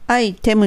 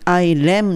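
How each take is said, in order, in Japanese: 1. 中間の子音は、はっきりしたT音です。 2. 中間の子音は、速いL風のフラップです。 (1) "アイテムにせずに" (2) "アイレムにする。L の音になってOK です。"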